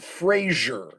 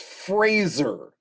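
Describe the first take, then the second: First: The name does not rhyme with razor. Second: The name rhymes with razor and laser. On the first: The speaker calls it wrong. "it's not Fraser" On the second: The speaker calls it right. "it's Fraser, like razor or laser"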